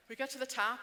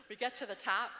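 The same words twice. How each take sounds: The two takes are said the same way.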